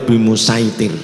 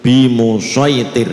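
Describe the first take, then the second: First: The s sound is light and plain. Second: The s sound is heavy and emphatic. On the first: The speaker calls it wrong. "tidak boleh" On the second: The speaker calls it right. "tetap dibaca shot"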